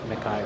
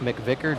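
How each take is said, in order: First: The name has no 'vick' sound in the middle. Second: The name has a 'vick' sound in the middle. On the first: The speaker calls it wrong. "not McIver" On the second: The speaker calls it right. "It is Chase McVicker"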